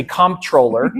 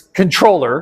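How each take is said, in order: First: Comptroller said as "KOMP-troh-ler"; spelling pronunciation. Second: Controller said as "kun-TROH-ler"; standard pronunciation. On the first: Author's preferred American way, Comptroller said "KOMP-troh-ler". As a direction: sound the m and p in Comptroller. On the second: Giving the correct form, Controller said "kun-TROH-ler". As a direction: say Controller with no m or p sound. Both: Shown as a demonstration. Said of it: "I like to say Comptroller".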